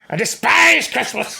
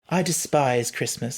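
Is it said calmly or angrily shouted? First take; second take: angrily shouted; calmly. First: It is shouted angrily and loudly. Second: It is said calmly and quietly.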